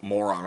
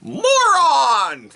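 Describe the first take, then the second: First: Said in the usual way. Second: High shouted moron; loud comic reveal. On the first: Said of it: "Literally, I just wrote". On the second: Acted. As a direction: announce it like a gag reveal.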